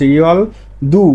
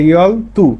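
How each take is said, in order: First: The second word starts with a soft d sound. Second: The second word starts with a hard t sound. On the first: The speaker calls it wrong. "না বলে" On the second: The speaker calls it right. "রিউলের পরে দিগুত আসলে ত হয়"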